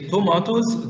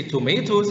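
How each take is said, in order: First: "tomatoes" as to-MAH-toes; British-style AH vowel in "tomatoes"; British pronunciation. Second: "tomatoes" as to-MAY-toes; American-style AY vowel in "tomatoes"; American pronunciation. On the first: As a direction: say "tomatoes" with a long AH in the middle. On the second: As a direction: say "tomatoes" with an AY in the middle. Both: Shown as a demonstration. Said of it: "Both of them are correct".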